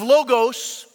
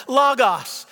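First: "logos" said the newer way, long O in both syllables, LOH-gohs; newer pronunciation of logos. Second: "logos" with short O sounds, LAH-gahs; old pristine pronunciation. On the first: Pastor shows the congregation the modern way, long O "logos". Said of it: "the newer way with your Bible software". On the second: Pastor teaches the old way, short O "logos". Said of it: "taught it as logos with the omicron, short O". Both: Shown as a demonstration.

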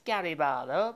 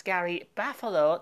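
First: Said in the usual way. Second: "Barlow" said as "Parfalow", a p with an f sound inside; mispronounced name. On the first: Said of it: "not [name]". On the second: Shown as a demonstration. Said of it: "So that's [name], not [name]".

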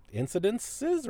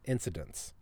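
First: "incidences" drawn out with an extra final syllable; trying out INCIDENCES. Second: "incidents" in three syllables, ending in "nts"; settling on INCIDENTS. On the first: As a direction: say "incidences" slowly, ending in "siz". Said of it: "incidences or incidents?". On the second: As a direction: say "incidents" lower and softer, no extra syllable. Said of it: "It's not incidences". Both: Shown as a demonstration.

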